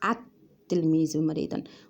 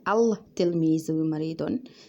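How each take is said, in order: First: The article's l merges into the following t. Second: The article keeps its l sound before t. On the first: The speaker calls it right. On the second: The speaker calls it wrong. "we don't read this as"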